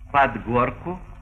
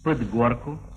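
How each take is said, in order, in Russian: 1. Гласный в pod звучит как «a». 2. Гласный в pod — редуцированная шва.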